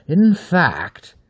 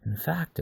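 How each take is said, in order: First: "In fact" punched high and loud on In; emphatic. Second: Said in the usual way. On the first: Acted. Wolf man presses Aver, stressing "In fact". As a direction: hammer the phrase In fact. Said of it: "it said with emphasis at it". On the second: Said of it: "it said with emphasis".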